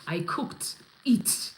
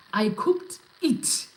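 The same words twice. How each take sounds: First: Lightly voiced boastful chef. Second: Hammed-up proud chef, rising to a higher last word; boastful chef. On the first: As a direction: mutter the boast like a proud cook. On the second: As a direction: push the brag harder. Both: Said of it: "When a chef goes around saying".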